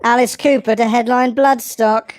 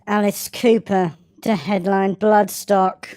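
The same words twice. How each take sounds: First: Mock newsreader headline, squeaky; news read. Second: Slower, grave mock newsreader; milk the headline like a serious anchor; more Michael Buerk. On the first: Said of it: "Like, like in the news". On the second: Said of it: "Michael Beck it up more". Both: Shown as a demonstration.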